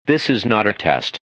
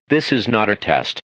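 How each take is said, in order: Both takes have the same delivery.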